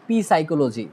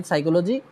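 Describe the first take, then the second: First: পি সাইকোলজি with the silent p said as পি; mispronounced পি সাইকোলজি with the letter পি; wrong spelled-out p. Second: সাইকোলজি with a silent p, starting on the s; correct pronunciation. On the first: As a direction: sound the p as পি before সাইকোলজি. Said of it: "আমার pronunciation wrong". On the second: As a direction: say সাইকোলজি with no p sound. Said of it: "আমার কাজ শেষ". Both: Shown as a demonstration.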